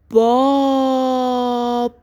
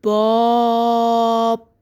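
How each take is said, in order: First: باب drawn out very slowly; stretched dictation. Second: باب again drawn out very slowly; stretched dictation repeated. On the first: Teacher dictating to young pupils, stretching باب very slowly. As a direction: hold باب long, sound by sound. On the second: Teacher repeating the word for pupils, stretching باب slowly. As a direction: repeat باب long and even. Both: Shown as a demonstration. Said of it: "با صدای بلند صدا کشی کن".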